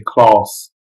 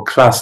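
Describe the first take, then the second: First: London "class" with a long, back "ah"; London accent. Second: Said in the usual way. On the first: Shown as a demonstration. Teasing students from London, London accent. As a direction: draw out "class" as "clahss", London style. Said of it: "Also in London". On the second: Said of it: "they'll say class".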